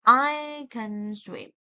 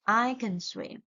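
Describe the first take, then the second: First: I can swim, can barely said, slow; slow demo with can reduced; weak can. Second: Said in the usual way. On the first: Shown as a demonstration. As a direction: keep can short and unstressed. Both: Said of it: "So how to pronounce this word?".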